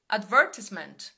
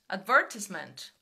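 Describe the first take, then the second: First: It is said with a British accent. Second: It is said with a British accent.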